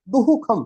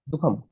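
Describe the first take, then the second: First: A full echo-vowel 'hu' syllable comes before kham. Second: Only a light breathy sound comes before kham. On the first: The speaker calls it wrong. "ऐसे थोड़ी बोलते हैं, दुहुखम नहीं" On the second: The speaker calls it right. "हल्का सा बोलते हैं बस"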